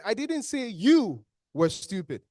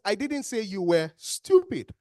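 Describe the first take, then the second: First: YOU drawn out long and loud, then a drop; slow line leaning hard on YOU; stress on YOU. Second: STUPID set apart and punched loud; slow line landing hard on STUPID; stress on STUPID. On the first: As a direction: hit and stretch the word "you". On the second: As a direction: hold back, then hit "stupid". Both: Shown as a demonstration. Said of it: "with the emphasis on those words".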